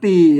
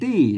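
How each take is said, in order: First: The word is said on a level tone. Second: The word is said on a raised tone. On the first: The speaker calls it right. "ตีมันไม่เสียงโท" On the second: The speaker calls it wrong. "คนทั่วไปมันก็อ่านว่าตี้"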